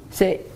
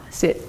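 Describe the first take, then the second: The two takes are said the same way.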